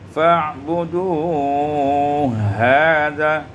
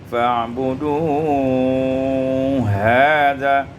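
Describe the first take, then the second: First: The two h sounds are merged into one. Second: The two h sounds are merged into one.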